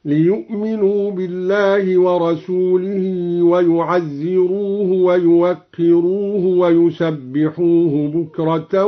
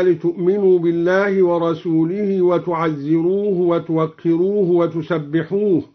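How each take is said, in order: First: ليؤمنوا ويعزروه with initial ya; third person ya. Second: Said in the usual way. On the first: Shown as a demonstration. Teacher demonstrates the ya reading for students. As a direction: recite ليؤمنوا ويعزروه ويوقروه ويسبحوه with ya sounds. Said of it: "على الإخبار هكذا". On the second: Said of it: "قرأ الدوري بياء الغيبة".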